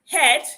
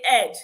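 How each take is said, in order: First: The word begins with an h sound. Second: The word begins with a vowel sound. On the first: "In words like head" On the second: "they'll say head"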